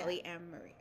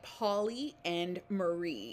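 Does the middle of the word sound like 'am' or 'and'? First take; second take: am; and. First: The middle syllable sounds like 'am'. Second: The middle syllable sounds like 'and'. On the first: The speaker calls it right. "So you have to say the am Marie" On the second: The speaker calls it wrong. "I'm thinking like poly and Marie"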